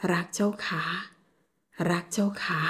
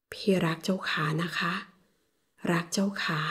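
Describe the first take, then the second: First: Said in the usual way. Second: Soft, lower hushed confession; tender whisper. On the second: Acted. Peet repeats his love to Jaokha, whispering. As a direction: whisper it close and gentle.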